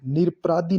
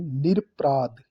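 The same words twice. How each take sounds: First: निरपराधी ending in long ee; wrong form. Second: निरपराध ending on the consonant dh; correct form. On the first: Teacher rejecting the wrong form: निरपराधी with final ee. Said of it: "नहीं". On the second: Teacher giving the right form: निरपराध ending on dh. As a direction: say निरपराध with no final vowel. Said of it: "ये शुद्ध है". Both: Shown as a demonstration.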